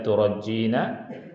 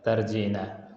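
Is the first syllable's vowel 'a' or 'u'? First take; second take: u; a. First: The first syllable has a u vowel. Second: The first syllable has an a vowel.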